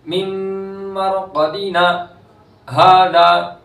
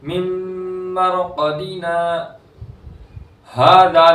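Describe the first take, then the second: First: The vowel is cut off with a glottal catch. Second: A full stop with a new breath before hadha. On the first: "अलिफ मद्दा नहीं करते बल्कि झटका दे देते हैं, तो वहां हमजा पैदा हो जाता है" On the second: "नई सांस से, तो ये वक्फ हो गया, गलत हो गया"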